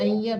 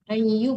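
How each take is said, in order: First: The vowel after the doubled y is a. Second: The vowel after the doubled y is u. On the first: The speaker calls it wrong. "bukan ayyab" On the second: The speaker calls it right. "Ayyub bukan ayyab"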